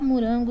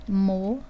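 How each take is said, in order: First: The o vowels are reduced to an 'oo' sound. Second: The o vowels are said as a full 'oh'. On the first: This is how it is said in casual speech. "eu posso falar morango, não tem problema nenhum" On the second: This is how it is written. "mas eu vou escrever morango"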